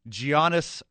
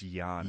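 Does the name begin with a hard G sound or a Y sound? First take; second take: hard G; Y sound. First: The name begins with a hard G sound. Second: The name begins with a Y sound. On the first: The speaker calls it wrong. "I hope I said that right" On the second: The speaker calls it right. "no G"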